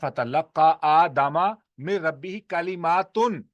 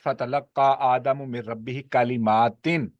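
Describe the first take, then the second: First: The last word ends with the sound -atun. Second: The last word ends with the sound -atin. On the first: The words themselves are the ones that reach Adam. "दूसरे में कलिमात फ़ाइल है" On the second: Adam is the one who receives the words. "एक है क़िराअत"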